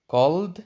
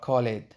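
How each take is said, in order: First: The word ends with a t sound. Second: The word ends with an extra id syllable. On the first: "Is it t or d or id?" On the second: "Is it t or d or id?"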